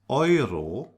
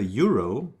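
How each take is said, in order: First: The first vowel sounds like 'oi'. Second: The first vowel is not an 'oi' sound. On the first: The speaker calls it right. "it's Euro" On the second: The speaker calls it wrong. "we don't say Euro"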